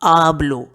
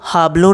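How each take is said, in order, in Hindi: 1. यह शब्द सीधे स्वर 'a' से शुरू होता है। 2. यह शब्द एक सुनाई देने वाली h ध्वनि से शुरू होता है। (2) "हाबलो नहीं"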